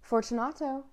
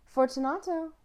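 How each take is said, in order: First: A first call into the dark; calling into the niche. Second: High, ringing call into the dark; calling louder into the niche. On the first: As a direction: call his name into the wall. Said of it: "I called aloud". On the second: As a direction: call his name into the wall, louder. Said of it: "I called again". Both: Acted.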